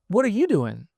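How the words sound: It sounds warm and welcoming.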